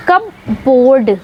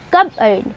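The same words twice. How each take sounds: First: कपबोर्ड spoken slowly with the p and the full board sounded; wrong pronunciation. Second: कबर्ड with silent p, said kuh-burd; correct pronunciation. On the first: Teacher showing the common mistake, कपबोर्ड with p and d said. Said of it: "वो ऐसे pronounce करते हैं as". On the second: Teacher giving the right form, कबर्ड without the p. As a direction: say कबर्ड as kuh-bud, no p sound. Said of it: "जो हम बोलते हैं वो बोलते हैं". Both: Shown as a demonstration.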